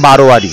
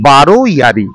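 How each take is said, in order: First: The two parts are run together quickly. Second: The two parts are said separately and slowly.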